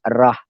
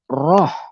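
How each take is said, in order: First: The vowel is an open, thin 'ah' sound. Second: The vowel is a full, rounded 'oh' sound. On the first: The speaker calls it wrong. "R-A-H, rah" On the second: The speaker calls it right. "bukannya rah, tapi roh"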